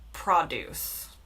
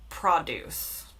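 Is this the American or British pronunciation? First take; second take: British; British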